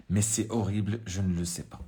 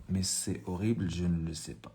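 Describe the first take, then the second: First: Said in the usual way. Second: Horrible stretched out slowly; slow and soft, dwelling on horrible; slow reading. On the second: Shown as a demonstration. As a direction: read it slowly, leaning on horrible. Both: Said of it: "reading the text aloud".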